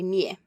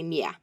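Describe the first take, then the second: First: It has the ordinary southeastern Finnish vowel. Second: The vowel is broader, almost like an 'a'.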